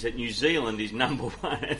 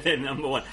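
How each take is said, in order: First: Said in the usual way. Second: Light attempt at a Kiwi accent. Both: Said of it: "I tried a Kiwi accent there".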